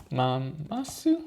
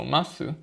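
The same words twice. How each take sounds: First: Mamasu said with an extra ma, questioning rise; unsure guess mamasu with a rising tone; mamasu, wrongly read as ma-ma-su. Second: Masu said crisply as two syllables, ma-su; masu, plain two syllables; corrected reading. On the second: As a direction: fix it to masu with confidence. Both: Real, not acted. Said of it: "No, masu".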